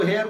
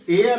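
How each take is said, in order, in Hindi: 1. इस शब्द की शुरुआत h ध्वनि से होती है। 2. इस शब्द की शुरुआत स्वर ध्वनि से होती है। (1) "मोस्टली इसको हेयर पढ़ेंगे" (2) "इसका रियल जो प्रोनाउंसिएशन है वो एयर है"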